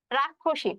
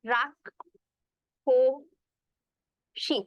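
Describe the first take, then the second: First: Said in the usual way. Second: রাক্ষসী stretched very slowly, ক্ষ as a doubled ক্খ; slow pronunciation demo. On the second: Shown as a demonstration. Teacher slowly showing students how রাক্ষসী is pronounced. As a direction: drag out রাক্ষসী, sounding the middle ক্ষ as ক্খ. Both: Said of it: "এরকম হবে".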